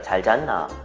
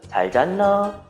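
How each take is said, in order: First: The pitch falls at the end. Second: The pitch rises at the end. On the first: The speaker calls it right. "이렇게 하는 경우가 많습니다" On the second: The speaker calls it wrong. "이렇게 할 수가 없죠"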